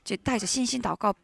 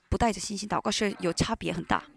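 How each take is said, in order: First: Said in the usual way. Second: 不 lifted and stressed against 带着. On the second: Shown as a demonstration. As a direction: lean on 不 in 不带着信心祷告.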